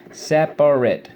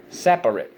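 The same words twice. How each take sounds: First: Loud, spaced SEP-AR-IT for "Separate"; syllable by syllable. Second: Said in the usual way. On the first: Shown as a demonstration. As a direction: punch out each beat of "Separate", short -it ending. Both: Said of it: "so let's go".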